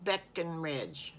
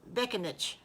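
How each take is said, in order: First: "Beckenridge" said slowly with a full "ridge" ending; slow, careful "Beckenridge"; corrected pronunciation. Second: Piglet's botched "Beckenich"; mispronounced name. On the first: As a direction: sound out "Beckenridge", clearly giving the r in "ridge". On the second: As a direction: say "Beckenich", dropping the r and closing on "itch". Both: Acted. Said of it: "Not Beckenich".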